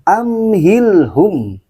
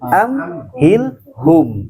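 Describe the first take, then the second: First: The final vowel is a rounded u. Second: The final vowel is an o. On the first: The speaker calls it right. "dhammah U bukan O" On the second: The speaker calls it wrong. "bukan amhilhum"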